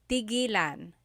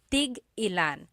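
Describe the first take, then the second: First: The word flows smoothly with no glottal stop. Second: A glottal stop breaks the word after 'tig'. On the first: It means to stop. "When there's no hyphen" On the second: It asks how many of each. "when there's a hyphen in it, you have to have that glottal stop"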